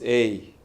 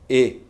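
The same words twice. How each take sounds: First: The vowel glides, forming a diphthong. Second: The vowel is pure, without a glide. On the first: "And in English it's A" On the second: "Spanish is A, it's not a diphthong"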